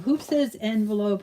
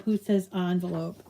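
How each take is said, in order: First: "envelope" said EN-velope, eh as in "end", lightly put-on voice; mock en-velope. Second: "envelope" said ON-velope, ah as in "on", her own plain voice; on-velope pronunciation. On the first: Crafter mocking the other way to viewers: "envelope" as EN-velope. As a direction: tease the EN-velope version in a mock voice. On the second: Crafter stating her own way to viewers: "envelope" as ON-velope. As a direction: answer back with the ON-velope version. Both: Shown as a demonstration. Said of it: "the only one left saying envelope".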